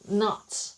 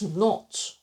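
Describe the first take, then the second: First: It is said with an American accent. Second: It is said with an Australian accent. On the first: "American English is not" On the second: "Australian English is not"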